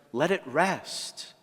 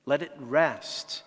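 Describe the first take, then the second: First: Gentle gardener's plea, "it" stressed; slow plea. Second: Gentle gardener's plea, "Let" stressed; slow plea. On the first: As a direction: stress on "it", slowly drawn out. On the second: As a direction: stress on "Let", slowly drawn out. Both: Acted. Gardener's plea, slowly repeated.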